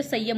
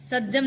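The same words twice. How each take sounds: First: संयम with a y glide; correct consonant. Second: सज्जम with a double j; wrong consonant. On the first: Teacher correcting the mistake, संयम with y, not j. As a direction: say संयम as "saiyyam". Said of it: "संयम होता है". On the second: Teacher showing the mistake, सज्जम with hard j. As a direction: say सज्जम as "sajjam". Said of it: "सज्जम नहीं तो". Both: Shown as a demonstration.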